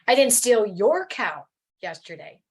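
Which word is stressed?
your. The stress is on the word your.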